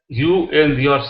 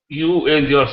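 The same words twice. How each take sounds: The two takes are said the same way.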